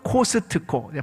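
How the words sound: Said the Korean way, every sound fully pronounced. This is what Koreans call it. "발음을 너무 정확하게 하시니까 그렇게 부릅니다"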